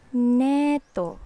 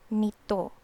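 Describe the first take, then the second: First: The first vowel sounds like 'eh'. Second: The first vowel sounds like 'ee'. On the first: "neto is like you say like e, e sound" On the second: "nito is a hard E sound"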